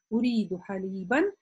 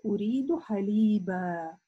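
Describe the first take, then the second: First: The last word ends with an n sound. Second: The last word ends with a long a. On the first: The speaker continues the sentence. "при продолжении мы как бы танвин только читаем" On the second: The speaker stops after this word. "когда мы останавливаемся на такое сочетание, то мы не читаем танвин, но мы читаем это алиф"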